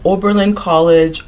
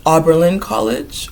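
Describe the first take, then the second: First: "Oberlin" with a long OH at the start; long O pronunciation. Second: "Oberlin" with an open AH at the start; open AH pronunciation. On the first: Giving the uncle's college, "Oberlin" pronounced OH-ber-lin. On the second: Trying the college name another way, "Oberlin" pronounced AH-ber-lin. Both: Shown as a demonstration. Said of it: "they told me how to pronounce it".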